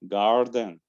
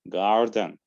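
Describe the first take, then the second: Both takes have the same delivery.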